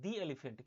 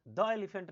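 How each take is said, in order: First: "the" said "dee" before elephant. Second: "the" said "duh" before elephant; wrong THE, "duh". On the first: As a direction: say "the" with a long ee. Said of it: "क्योंकि ए sound आ रहा है". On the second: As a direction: say "the" with an open "daw" vowel. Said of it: "नहीं". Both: Shown as a demonstration.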